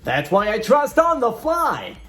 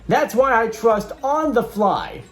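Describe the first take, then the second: First: It is read in a put-on radio announcer voice. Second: It is read in an ordinary speaking voice.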